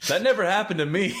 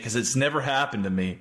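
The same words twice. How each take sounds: First: Laughing through the words; giggling disbelief. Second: Said in the usual way. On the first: Real, not acted. Laughing while answering friend.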